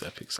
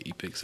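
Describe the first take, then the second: First: Epix said EH-pix; short-E pronunciation. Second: Epix said EE-pix; long-E pronunciation. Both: Shown as a demonstration. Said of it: "I don't, I don't know".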